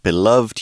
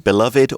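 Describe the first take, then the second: First: The final 'ed' is not sounded separately. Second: The final 'ed' is sounded as a separate syllable. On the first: "or just beloved ... or not" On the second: "You can sound that final syllable"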